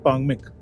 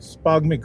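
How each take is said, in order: First: The name begins directly with a p. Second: The name begins with an s before p. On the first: The speaker calls it right. "But actually pronunciation है पांगमिक" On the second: The speaker calls it wrong. "स्पागमिक भी बोल देते हैं"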